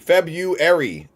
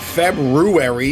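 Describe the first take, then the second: First: The first R is left out. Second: The first R is clearly pronounced. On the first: The speaker calls it right. "The R is silent. It's February" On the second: The speaker calls it wrong. "It's not February. You don't say the R"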